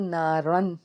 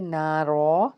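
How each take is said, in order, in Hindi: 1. शब्द 'न' की ध्वनि पर खत्म होता है। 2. शब्द एक लंबे 'आ' स्वर पर खत्म होता है। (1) "अगर हम यहाँ पे स्टॉप नहीं करते तो ना रन पढ़ेंगे" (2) "अगर हमने यहाँ पे स्टॉप करना है तो हम एक अलिफ से मिला के इसको पढ़ेंगे"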